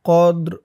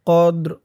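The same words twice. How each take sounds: The two takes are said the same way.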